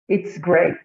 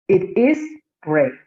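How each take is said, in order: First: The pronoun and verb are joined in one syllable. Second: The pronoun and verb are said as separate words. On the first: "pronunciarlo como si estuviera contraído" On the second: "como si fuera eh, no contraída la forma"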